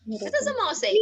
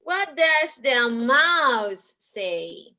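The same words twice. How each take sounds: First: Quick, high little voice; high-pitched repeated question. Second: Very slow, stretched words; slow question. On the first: Teacher prompting children for the mouse sound, high-pitched. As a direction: ask it high and in one go. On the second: Teacher asking children about the mouse, very slowly. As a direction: space out each word for learners. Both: Shown as a demonstration.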